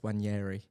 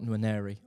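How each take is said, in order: First: The name begins with the N silent. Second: The name begins with a sounded N. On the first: The speaker calls it right. "I found out it's Wanyeri" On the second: The speaker calls it wrong. "Not Nwaneri"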